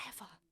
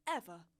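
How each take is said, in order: First: Said in the usual way. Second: "Ever" repeated, hit louder; stressed repeat. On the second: Shown as a demonstration. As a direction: punch "Ever" hard the second time.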